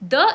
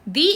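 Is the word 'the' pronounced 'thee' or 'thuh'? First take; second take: thuh; thee. First: The vowel is short, sounding like 'thuh'. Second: The vowel is long, sounding like 'thee'. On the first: The next word starts with a consonant sound. "हम इसको द pronounce करेंगे" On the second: The next word starts with a vowel sound. "अगर word एक vowel sound से start हो तब हम दी का यूज करते हैं"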